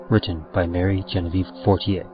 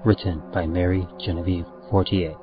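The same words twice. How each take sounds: The two takes are said the same way.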